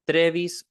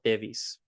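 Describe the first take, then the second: First: It begins with 'tr', with an r sound. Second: It begins with 't', with no r sound. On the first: "twenty-three is trevis" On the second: "The other way to say number twenty-three is tevis"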